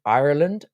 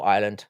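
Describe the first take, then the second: First: Ireland with the r sounded, in full syllables; full proper pronunciation. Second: Ireland shortened to sound like island, no r; lazy short pronunciation. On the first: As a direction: say Ireland carefully, not running it into "island". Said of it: "you should pronounce it Ireland". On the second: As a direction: let Ireland slide into a quick "island". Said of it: "but it's effort. So I'll just go island". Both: Shown as a demonstration.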